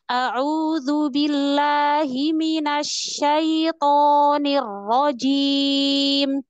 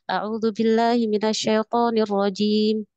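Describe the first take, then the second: First: It is recited carefully and deliberately. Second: It is recited casually and hurriedly. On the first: It is read as if in front of a teacher. The speaker calls it right. "Misalkan depan guru bacanya gini" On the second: It is read alone at home. The speaker calls it wrong. "Ketika tilawah di rumah"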